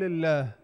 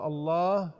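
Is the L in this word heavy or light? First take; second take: light; heavy. First: The L is light, with a thin fronted sound. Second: The L is heavy, with a deep backed sound. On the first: "الا اذا في حاله استوجبت انه يكون مرقق" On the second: "الحالة الأولى الله واللي هي الحالة الأكثر اسمها مفخم"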